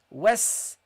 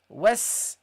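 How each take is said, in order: No difference in how they are said.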